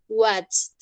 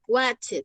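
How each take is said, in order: First: The ending is a single t sound. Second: The ending is an extra syllable like 'it'. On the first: The speaker calls it right. "terminan como si acabaran en una T" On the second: The speaker calls it wrong. "fonéticamente es terrible"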